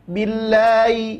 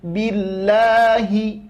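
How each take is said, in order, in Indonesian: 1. Bunyi H diseret dan tidak jelas. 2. Bunyi H diucapkan dengan jelas. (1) "tidak menjelaskan huruf ha-nya ... seolah-olah huruf ha itu terseret. Jangan" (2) "tapi jelaskan billahi"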